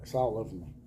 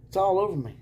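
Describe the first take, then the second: First: Said in the usual way. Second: Sarcastic, higher and louder. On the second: Pretend. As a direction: ham it up, dripping sarcasm. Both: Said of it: "Sarcasm everywhere".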